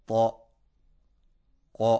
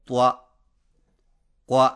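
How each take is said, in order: First: تو، کو with a full, heavy rounded vowel; heavy fatha. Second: توا، قوا said light and thin; thin out توا and قوا on purpose; wrongly thin fatha. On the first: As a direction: correct heavy reading of تو، کو. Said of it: "تو موٹی آواز میں پڑھنا ضروری ہے". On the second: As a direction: mistaken thin reading as a warning. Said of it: "اس کو باریک آواز میں یوں پڑھنا". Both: Shown as a demonstration.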